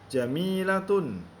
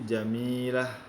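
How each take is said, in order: First: The word ends with a t sound and vowel. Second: The word ends with a soft h sound. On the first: The word is read in full without stopping. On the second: The reader stops on this word.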